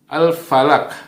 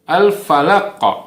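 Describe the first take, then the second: First: The final consonant stops flat without a bounce. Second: The final consonant ends with an echoing bounce. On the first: The speaker calls it wrong. "Kalau tidak dipantulkan seolah-olah ini seperti huruf kaf" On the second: The speaker calls it right. "Tapi seharusnya adalah"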